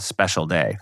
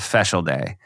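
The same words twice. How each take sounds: First: The first word is said as standard 'special'. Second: The first word is said like 'feshel'. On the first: This is the usual adult way of saying it. "what they call a special day" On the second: This is how the child said it. "but she called it a special day"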